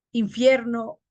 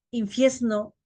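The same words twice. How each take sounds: First: Said in the usual way. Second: "infierno" said as "infiesno". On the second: Shown as a demonstration. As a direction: swap r for s, "infiesno". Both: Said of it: "R por S".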